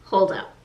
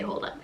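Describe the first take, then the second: First: Said in the usual way. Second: "Hold up" dropped much softer, almost under the breath; quiet aside. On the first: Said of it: "and he's like". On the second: Retold or imitated. Correcting her paraphrase, "Hold up" said softly. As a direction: murmur "Hold up" as a throwaway. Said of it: "He doesn't say".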